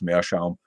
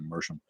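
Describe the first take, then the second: First: It is said with a German pronunciation. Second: It is said as an anglicized English word. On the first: "but it's Meerschaum" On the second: "My dad always pronounced it Mersham in English"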